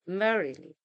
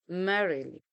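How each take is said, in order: Both takes have the same delivery.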